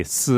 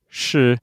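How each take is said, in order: First: "s" in place of "sh", a hissed syllable; accented "s" syllable, isolated; regional S for SH. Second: "sh" said as a hushing syllable; the classic "sh" syllable, isolated; standard SH sound. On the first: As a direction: say "s" with the tongue forward, no "sh". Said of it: "which is actually a s in some areas". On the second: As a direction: say a clear "sh" with the tongue drawn back. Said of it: "there's the classic sh, which is actually a s". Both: Shown as a demonstration.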